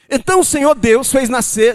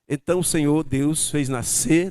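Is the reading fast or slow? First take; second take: fast; slow. First: The sentence is read at a fast pace. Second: The sentence is read at a slow pace. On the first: "você talvez tenha lido igual eu li agora. Você leu rápido" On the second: "Vamos ler devagar"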